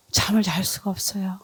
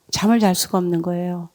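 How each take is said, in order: First: 잠을 잘 수가 없어요 repeated much softer; quiet repeat. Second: Said in the usual way. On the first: Shown as a demonstration. Grieving mother recalling a sleepless night, repeating it softly. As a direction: let 잠을 잘 수가 없어요 drop to a hush the second time.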